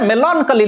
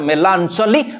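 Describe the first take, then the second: First: The middle consonant is a k sound. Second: The middle consonant is a ch sound. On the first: The speaker calls it right. "But this is मेलांकोली" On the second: The speaker calls it wrong. "Not मेलांचोली"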